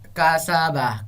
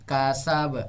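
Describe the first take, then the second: First: The word ends with a short final vowel. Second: The word ends on the consonant, no final vowel. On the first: The word is read without stopping. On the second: The reader stops at the end of the verse.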